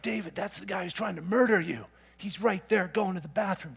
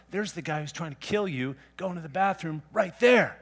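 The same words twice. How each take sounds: First: Eager men whispering to their leader; urging soldiers. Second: Said in the usual way. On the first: Retold or imitated. David's men urging him in the cave, hushed and eager. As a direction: nudge him toward the kill, hushed. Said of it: "David's men are like". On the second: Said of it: "Chapter twenty-four".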